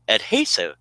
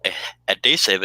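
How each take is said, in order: First: Adhesive with the H sounded, ad-HAY-sive. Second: Adhesive said without the H, 'ettesive'; dropped H. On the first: Shown as a demonstration. Host corrects cohost's adhesive, H sounded. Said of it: "It's adhesive". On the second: Retold or imitated. Host mimics cohost dropping the H in adhesive. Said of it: "you forgot the H sound".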